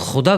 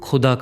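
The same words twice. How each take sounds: First: The word starts with a raspy throat kh sound. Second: The word starts with an aspirated k sound. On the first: It means God. The speaker calls it right. "इस्तेमाल तो खुदा करना चाहता है" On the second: It means dug up. The speaker calls it wrong. "लेकिन वो खुदा कर देता है"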